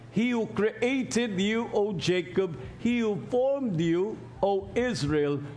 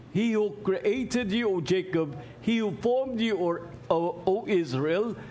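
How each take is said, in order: No difference in how they are said.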